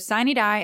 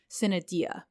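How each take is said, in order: First: It uses the pronunciation common in Georgia. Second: It uses another common regional pronunciation. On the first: This is the local way of saying the term. "is how we say it here in Georgia" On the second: This is a way of saying the term elsewhere. "another common pronunciation"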